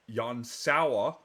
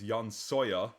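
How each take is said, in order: First: The surname is said like 'sour'. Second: The surname is said like 'sawyer'. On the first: The speaker calls it right. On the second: The speaker calls it wrong.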